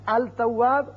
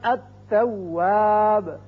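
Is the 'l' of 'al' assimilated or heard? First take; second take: heard; assimilated. First: The l is clearly pronounced before the t. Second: The l is dropped and the t doubled. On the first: The speaker calls it wrong. "अल तवाब गलत है" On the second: The speaker calls it right. "ता की मिसाल"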